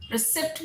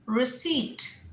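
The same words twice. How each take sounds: First: Receipt as ri-SIPT, p sounded; mispronunciation. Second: Receipt as ri-SEET, silent p and long EE; correct pronunciation. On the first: Teacher shows the mistake, receipt as ri-SIPT. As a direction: say receipt wrongly with a short i and a p, ri-SIPT. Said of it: "receipt नहीं". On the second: Teacher tells the class this is it, receipt as ri-SEET. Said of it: "This is receipt". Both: Shown as a demonstration.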